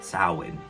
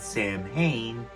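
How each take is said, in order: First: It is said the way the festival is named. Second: It is said the way the band is named. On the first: It names the autumn festival. The speaker calls it right. "Pronounced Samhain" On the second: It names a rock band. The speaker calls it wrong. "you're talking about the band that [name] went to start"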